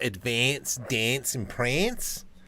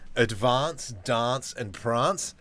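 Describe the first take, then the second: First: It is said in an East Coast accent. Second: It is said in an Adelaide accent.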